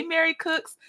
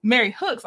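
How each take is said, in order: First: Cooks said with a hard K, the slip before the fix; misread name. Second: Hooks with a breathy H at the start, the fixed name; corrected name. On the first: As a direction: say Mary Cooks, starting the surname with K. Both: Real, not acted. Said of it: "I'm sorry".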